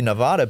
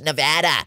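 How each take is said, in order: First: The name is said the Spanish-style way. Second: The name is said the way locals say it. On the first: The speaker calls it wrong. "it's of Spanish origin, right? Nevada. So it should be Nevada" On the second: The speaker calls it right. "They're like, it's Nevada"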